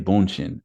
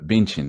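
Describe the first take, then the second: First: The name is said in an anglicized way. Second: The name is said the local Brazilian way.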